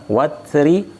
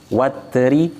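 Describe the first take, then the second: Both takes have the same delivery.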